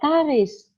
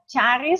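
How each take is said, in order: First: The name begins with a k sound. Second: The name begins with a ch sound. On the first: "So it sounds a K" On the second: "Is that is that ch charis"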